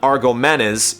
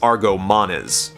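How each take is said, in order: First: The name is said as 'Argomenes'. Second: The name is said as 'Argomanes'. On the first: The speaker calls it wrong. "it's not Argomenes" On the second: The speaker calls it right. "it's Argomanes"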